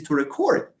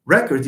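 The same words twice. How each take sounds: First: "record" stressed on its second syllable. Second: "record" stressed on its first syllable. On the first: Teacher naming the verb, second-syllable stress on "record". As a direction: land hard on the end of "record". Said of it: "you stress the second syllable". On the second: Teacher naming the noun, first-syllable stress on "record". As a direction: lean on the start of "record". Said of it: "record is the noun". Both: Shown as a demonstration.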